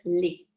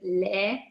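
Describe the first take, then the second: First: The vowel is not the open 'è' sound. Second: The vowel is the open 'è' sound. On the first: This is how it comes out in everyday speech. "parfois quand on parle, on va dire les" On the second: This is how it should be read aloud. "c'est vraiment le son est et quand on lit à voix haute, on doit dire les"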